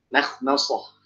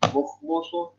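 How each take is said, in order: First: The vowels are light and thin. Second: The vowels are heavy and thick. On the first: The speaker calls it right. "Makhmasah itu juga sama" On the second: The speaker calls it wrong. "Mimnya jangan bacanya mukhmusuh"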